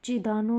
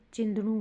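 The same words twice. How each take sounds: First: चिदानु with long "daa" and no nasal; wrong pronunciation. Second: चिंदनु with nasal "chin" and short "da"; corrected pronunciation. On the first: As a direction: say चिदानु as "chi-daa-nu", louder. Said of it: "नहीं". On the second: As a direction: say चिंदनु as "chind-nu". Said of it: "होगा". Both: Shown as a demonstration.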